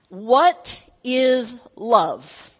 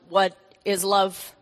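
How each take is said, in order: First: It is said in his normal voice. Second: It is said in a put-on alien voice.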